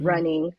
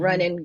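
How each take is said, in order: First: The final -ing is fully pronounced. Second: The final -ing is reduced.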